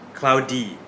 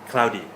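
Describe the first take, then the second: First: The word is said slowly and very clearly. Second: The word is said quickly at natural speed. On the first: "I'll say it very clearly" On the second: "that was natural speed, native speed"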